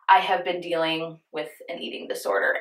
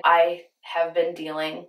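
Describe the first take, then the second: First: Said in the usual way. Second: Slow, voice catching with emotion; choked up. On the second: Real, not acted. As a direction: hold back tears as you say it. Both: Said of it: "I get choked up talking about this".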